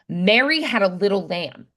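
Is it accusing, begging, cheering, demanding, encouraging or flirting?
accusing. It sounds accusing.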